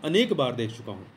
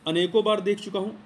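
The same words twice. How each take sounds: First: अनेक said firmly with a falling tone; stress on अनेक. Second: Said in the usual way. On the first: Shown as a demonstration. Teacher giving the corrected sentence, stressing अनेक. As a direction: lean on the word अनेक.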